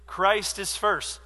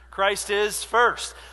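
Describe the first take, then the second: First: It is said at normal, quieter volume. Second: It is said louder, with more energy.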